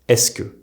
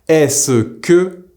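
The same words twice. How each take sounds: First: The 'ce' shrinks to a single s sound. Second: The 'ce' is said as a full syllable.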